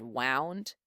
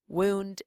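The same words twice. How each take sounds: First: "wound" with an ow sound, as in wound up; ow vowel. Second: "Wound" with an oo sound, as in injury; oo vowel. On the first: Spanish teacher contrasting vowel sounds, "wound" said with ow. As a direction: say "wound" to rhyme with found. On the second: Spanish teacher contrasting vowel sounds, "Wound" said with oo. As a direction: say "Wound" as WOOND. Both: Shown as a demonstration. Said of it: "It all depends on our vowel sounds".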